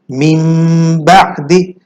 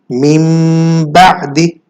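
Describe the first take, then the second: First: The first word ends in a nasal m sound. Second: The first word ends in a nasal m sound.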